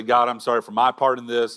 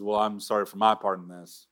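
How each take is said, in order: First: Mock half apology. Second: Mock God apologizing back. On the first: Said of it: "we don't come to God and say". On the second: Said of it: "And God says".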